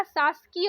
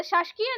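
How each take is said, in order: First: शासकीय with s before k, "saskiya"; plain s sound before kiya in शासकीय; correct pronunciation. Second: शासकीय said "shash-kiya" with a second sh; sh in place of s in शासकीय; wrong pronunciation. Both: Shown as a demonstration. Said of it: "शासकीय नहीं होता".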